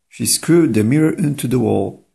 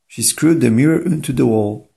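The two takes are said the same way.

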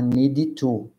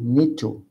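First: An extra i vowel follows the d before to. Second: The d links straight into to, no extra vowel. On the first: The speaker calls it wrong. "vocês não podem falar need to. Não tem um som de i depois do need" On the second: The speaker calls it right. "a gente conecta o need com o to"

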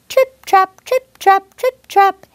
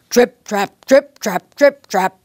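First: The voice is small, light and high. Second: The voice is big, heavy and deep. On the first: A little goat is walking over the bridge. "The little billy goat might sound like" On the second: A big goat is crossing the bridge. "the big billy goat might sound like"

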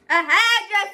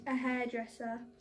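First: It is said more loudly. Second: It is said at a quiet, normal volume.

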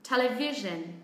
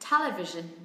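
First: The main stress is on the third syllable. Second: The main stress is on the first syllable. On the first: "trọng âm rơi vào âm tiết thứ ba" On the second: "trọng âm rơi âm tiết thứ nhất"

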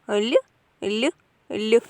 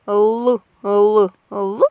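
First: The L sound is soft, palatalized. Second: The L sound is hard, not palatalized. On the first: It is the sound of bells of joy in the heart. "а звук дзвіночків, який лунав в серці у Левка" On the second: It is the sound of the toy planes. "Звук літачків"

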